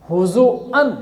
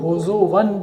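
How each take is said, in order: First: A glottal stop comes before the final 'an'. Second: A w sound comes before the final 'an'. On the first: This is the original form with hamza. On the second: The hamza is replaced to match the preceding vowel.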